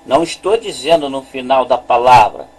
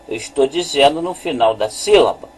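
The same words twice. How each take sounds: First: Quick denial, falling on "palavra"; contrastive stress on palavra. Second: Quick correction landing on "sílaba", falling; contrastive stress on sílaba. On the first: Teacher clarifying a rule to students, contrastive stress on "palavra". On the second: Teacher correcting a likely misunderstanding, contrastive stress on "sílaba". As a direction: make "sílaba" the point, brisk and falling. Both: Shown as a demonstration. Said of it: "eu estou falando de sílaba".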